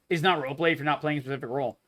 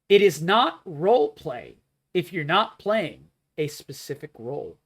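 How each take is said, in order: First: The sentence is spoken at a normal pace. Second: The sentence is spoken slowly and deliberately.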